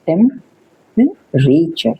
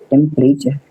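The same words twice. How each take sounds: First: टेम्परेचर stretched slowly with a high rising end; drawn-out model word. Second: Said in the usual way. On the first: Shown as a demonstration. Teacher modelling टेम्परेचर slowly for students, drawn out and rising. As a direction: draw out टेम्परेचर syllable by syllable, ending up high.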